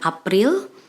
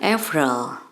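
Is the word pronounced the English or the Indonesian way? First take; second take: Indonesian; English. First: The word is pronounced the Indonesian way. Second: The word is pronounced the English way. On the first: "Dalam bahasa Indonesia kita ucapkan April" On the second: "di sini kita ucapkan April"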